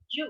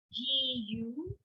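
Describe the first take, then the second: First: "Ju" merged into one syllable, jyu; contracted. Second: "G U" as a long ji, then a rising yu; separate syllables. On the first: Teacher repeating the contrast for learners, "Ju" as one syllable. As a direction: say "Ju" short and single. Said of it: "makes it a contracted sound". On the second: Teacher repeating the contrast for learners, "G U" in two syllables. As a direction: keep ji and yu apart in "G U". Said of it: "notice the difference". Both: Shown as a demonstration.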